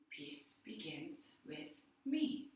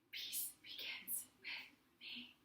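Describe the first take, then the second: First: It is spoken more quietly and lower. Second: It is spoken in a whisper. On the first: "say it a little bit lower" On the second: "say it in a whisper"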